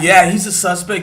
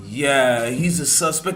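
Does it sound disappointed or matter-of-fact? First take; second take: matter-of-fact; disappointed. First: It is said plainly and matter-of-factly. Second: It is said hesitantly, sounding disappointed.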